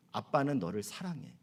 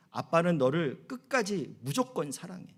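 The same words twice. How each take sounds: First: Put-on soft and low, like a father to his child; a hushed, loving father's promise; tender father. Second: Said in the usual way. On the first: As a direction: say it gently to your daughter. Father speaking tenderly to daughter.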